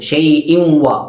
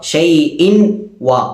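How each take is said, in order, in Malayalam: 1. n, മൂക്കൊലി കലർന്ന w-യിൽ ലയിക്കുന്നു. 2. n, w ശബ്ദങ്ങൾ വേറിട്ട് നിലനിൽക്കുന്നു. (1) "നമ്മൾ ചേർത്തു ഷൈഇൻ വ ഇവ്വാന്നാക്കി" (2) "ഷൈഇൻ വ എന്ന് പറയേണ്ട സ്ഥലത്ത്"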